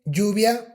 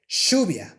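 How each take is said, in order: First: The first sound is not like sh. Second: The first sound is like English sh. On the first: "So it's not like" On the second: "in Spanish from Argentina, the Y and the double L sound, it's more like sh"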